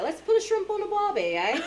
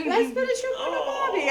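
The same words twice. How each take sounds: First: Very high, playful mock-Australian voice; Australian accent. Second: Put-on loud, very high child copying an Australian accent; son's Australian accent. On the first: Shown as a demonstration. Parent rousing the kids on a rough morning, Australian accent. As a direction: put on a squeaky Australian accent. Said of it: "I think it's Australian or something". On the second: Son with teddy bear echoing parent, loud Australian accent. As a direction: shout it as a little boy's mock-Australian. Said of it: "My son come up with his teddy bear".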